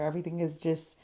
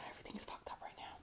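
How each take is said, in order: First: Said in the usual way. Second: Hushed, fast, breathy whisper to herself; quick frustrated whisper aside. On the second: Real, not acted. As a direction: whisper it fast under your breath, fed up. Muttered frustration at messy contour.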